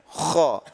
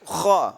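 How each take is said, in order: First: The lips are pushed out, rounding it like u. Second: The lips move forward only slightly, not like u. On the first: The speaker calls it wrong. "tapi orang-orang ya kok mencucu" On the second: The speaker calls it right. "Kalau saya kho, kho, kho, terangkatnya pangkal lidah"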